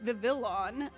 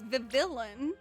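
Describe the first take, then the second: First: The name is said with an L sound inside. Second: The same.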